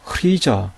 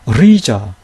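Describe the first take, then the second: First: The word begins with an h sound before r. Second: The word begins with an r sound. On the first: The speaker calls it wrong. "이런 식으로 읽는 분들이 있어요. 그것은 잘못된 독법이에요" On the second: The speaker calls it right. "이렇게 읽어야 돼요"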